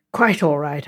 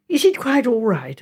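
First: Said in the usual way. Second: Mildly anxious question; Megan. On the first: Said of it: "I said". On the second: A narrator's reading. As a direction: ask with a touch of worry. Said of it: "asked Megan anxiously".

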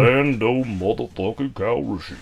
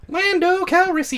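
First: Vocal fry Lando. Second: High, forced Lando voice; a squeaky, overblown Lando; Lando impression, high take. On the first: Retold or imitated. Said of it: "with some vocal fry on it". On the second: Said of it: "That's too deep".

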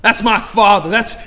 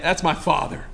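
First: "father" hit loud and falling, proclaimed; preacher's loud declaration of "father"; loud proclamation. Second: Said in the usual way. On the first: Real, not acted. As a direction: belt out "That's my father". Repeats line, then belts it.

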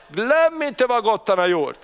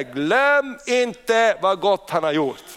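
First: Said in the usual way. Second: "Glöm" weighted, every word slowed; solemn scripture reading. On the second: Shown as a demonstration. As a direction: read the verse slowly, leaning on "Glöm". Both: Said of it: "Psaltaren hundratre säger".

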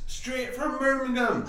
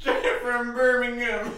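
First: High Jamaican hype man; Jamaican accent. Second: Slow, high Jamaican voice; Jamaican accent. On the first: Pretend. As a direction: say it Jamaican style. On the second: Retold or imitated. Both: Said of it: "why does he go straight to Jamaica".

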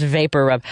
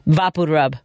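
First: Vapor rub said as VAY-per rub, English vowels. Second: Vapor Rub said as VAH-po roob, Latino way; Spanish-style vapor rub. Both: Shown as a demonstration. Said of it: "it's pronounced vapor rub".

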